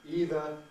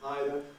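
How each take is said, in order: First: It is said with the American pronunciation. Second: It is said with the British pronunciation. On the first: This pronunciation is gaining ground in Britain. "so-called American pronunciation" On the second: This pronunciation is gaining ground in America. "so-called British pronunciation"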